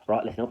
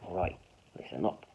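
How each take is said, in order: First: The words run together without a pause. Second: There is a pause after the word right. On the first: The speaker calls it wrong. "So I wouldn't just be like" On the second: The speaker calls it right. "there's a comma there. ... I'll be like"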